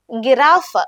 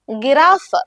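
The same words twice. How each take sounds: The two takes are said the same way.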